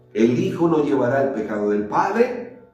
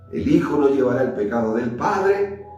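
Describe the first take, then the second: The two takes are said the same way.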